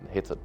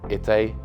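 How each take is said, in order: First: The name starts with an audible H sound. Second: The name starts with a vowel, no H sound. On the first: This is how the name came to be said over generations. "as time went over" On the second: This is the original French pronunciation. "you don't pronounce the H, it's actually"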